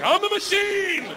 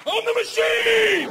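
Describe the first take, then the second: First: Much higher and slow, stretched out; squeaky proud boast. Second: Much higher, louder, slow triumphant shout; shouted boast. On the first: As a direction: squeak it out slowly like a proud claim. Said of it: "I was like". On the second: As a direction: bellow it like a battle cry. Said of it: "Fuck it". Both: Retold or imitated.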